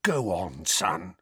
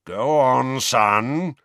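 First: Gentle prompting. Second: Loud, higher, furious urging. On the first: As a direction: coax him along gently. Parents gently prompt their son. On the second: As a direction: order him on, fuming. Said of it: "moustache blowing about furiously". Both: A narrator's reading.

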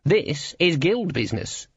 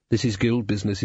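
First: High, slow pronouncement; menacing guild boss. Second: Henchman's plain-spoken voice. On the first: Guild boss closing the argument, menacing and insistent. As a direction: insist weightily, pitched up. Cleet's take of repeated words. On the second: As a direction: say it matter-of-factly, unemphatic. Shuffle's take of repeated words. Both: A narrator's reading.

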